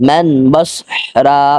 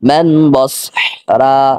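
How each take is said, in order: The two takes are said the same way.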